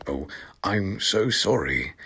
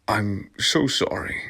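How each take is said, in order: First: Soft, shy apology; a shy boy apologizing. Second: Shy. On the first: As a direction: say it timidly, barely up. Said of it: "he said in a shy voice". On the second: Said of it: "he said in a shy". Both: Acted.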